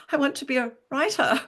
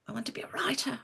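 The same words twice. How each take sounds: First: Repeated clearly and higher, louder. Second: Whispered, timid and small. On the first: Repeating her dream to the counsellor who misheard, louder. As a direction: say it again so she can hear it this time. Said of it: "I said". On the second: To the career counsellor, admitting her dream in a tiny whisper. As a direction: barely dare to say it aloud, in a whisper. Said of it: "in a very small voice". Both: Retold or imitated.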